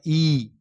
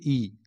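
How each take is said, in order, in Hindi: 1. यह स्वर दीर्घ है, जोर देकर बोला जाता है। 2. यह स्वर सीधा और ह्रस्व बोला जाता है। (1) "दीर्घ ई कहना है तो उसको जोर देके कहना है" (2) "हर्ष ई कहना है तो सीधे कह दीजिए"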